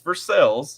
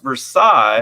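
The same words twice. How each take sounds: First: It is said with the local Kentucky pronunciation. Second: It is said with the French pronunciation. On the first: This is how the town's name is actually said locally. "it's not. It's Versailles" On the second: This is how the original French name sounds. "which should be pronounced Versailles"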